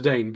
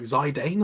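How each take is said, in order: First: Zidane said zuh-DANE; Zidane ending like "Dane"; acceptable Zidane variant. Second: Zidane said zy-DANE; Zidane as zy-DANE, long I; disputed Zidane variant. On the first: Shown as a demonstration. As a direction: keep the first vowel weak in Zidane: zuh-DANE. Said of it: "that's fine". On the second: Retold or imitated. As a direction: open Zidane with "zy", rhyming with eye. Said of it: "Where does that come from?".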